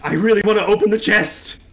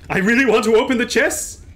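First: Said in the usual way. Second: "chest" said without its final T; dropped T. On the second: Real, not acted. Player wishing to open it, "chest" missing its T. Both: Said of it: "I pronounced it without the T".

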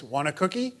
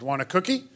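First: Put-on child parroting the question, rising at the end; exact echo. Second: Higher-pitched question, rising at the end; lightly voiced adult offering a treat; offering to a child. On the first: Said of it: "in the exact same voice". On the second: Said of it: "You say to the child".

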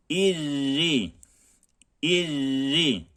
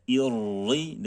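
First: "İrri" with a thin rolled double r and a thin i; thin irri. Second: "İrri" with the wrong r, said quickly inside the sentence; wrong irri. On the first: Teacher models the correct thin irri, drawn out. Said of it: "İ ve ra direkt ince". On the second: Teacher shows students the wrong irri, quick and in passing. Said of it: "İrri demiyoruz". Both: Shown as a demonstration.

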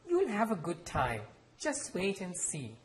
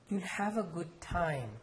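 First: Higher, brightly upbeat promise; cheerful. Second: Almost pleading. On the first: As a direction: cheer the boy up with mild cheer. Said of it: "and said cheerfully". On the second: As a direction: plead gently with the boy. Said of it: "in an almost pleading tone". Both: Acted.

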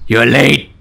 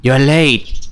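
First: Lightly growled Batman-like voice; a touch of angry, strict menace; angrier voice. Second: Toned-down stern voice, no Batman growl; lightly voiced strict schoolgirl; strict girl. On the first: Player tries a voice for the strict girl, angrier voice. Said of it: "give her a more angrier voice". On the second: Player retries the voice for the strict girl, mildly stern. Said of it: "that's what I get". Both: Shown as a demonstration.

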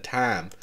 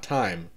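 First: "time" said with a strong southern vowel; southern accent. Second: Said in the usual way. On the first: Shown as a demonstration. Vlogger mimicking her own slip, southern accent on "time". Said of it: "Sometimes my southern accent gets really strong". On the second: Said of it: "Also, I just said time".

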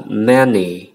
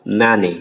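First: Many with the a said like e, slowly; teacher models correct many. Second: Many with an open a, the mistaken way; teacher demonstrates wrong many. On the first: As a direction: say many as meh-ny. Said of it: "đọc là many". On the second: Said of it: "chứ không phải đọc là many". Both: Shown as a demonstration.

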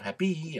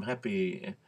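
First: HAPPY ending in a long, tense "ee"; emphatic final E. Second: HAPPY ending between "ee" and "ih"; relaxed, unstressed end on "happy"; in-between final vowel. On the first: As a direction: stretch the end of "happy" to "hap-pee". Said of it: "Well, I'm in between". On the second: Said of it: "that's an in-between sound". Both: Shown as a demonstration.

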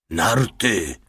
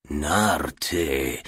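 First: Voiced one-word mutter, lightly acted. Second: Low-key, musing murmur; pensive murmur. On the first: The little one reporting what woke them, lightly muttered. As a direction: mutter it as a firm, short verdict. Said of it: "mruknął mały". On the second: Commissar pondering the little one's report, murmuring pensively. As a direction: turn the word over in thought. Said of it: "mruczał w zamyśleniu komisarz". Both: A narrator's reading.

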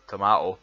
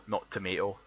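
First: "tomato" said as to-MAH-to, broad Scottish. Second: "tomato" said as to-MAY-to, the American way; quoting the American "tomato" before correcting it. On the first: Correcting to his own version, Scottish tomato. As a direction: land "tomato" firmly with the ah vowel. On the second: Rejecting the American version, American tomato. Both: Shown as a demonstration.

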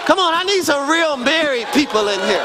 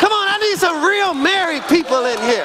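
First: Raised preaching call to the crowd; urging the congregation, raised voice. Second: Preacher shouting to the married people; shouted call. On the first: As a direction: call the married folks in, firmly. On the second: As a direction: belt it out to rouse the room. Preacher repeats the call, stronger. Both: Real, not acted.

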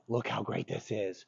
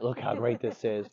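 First: Softer, coaxing praise to a dog; positive contrast. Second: Positive contrast. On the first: Trainer showing a dog the good option, positive tone. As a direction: drop the volume and make it inviting. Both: Shown as a demonstration. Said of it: "there's contrast".

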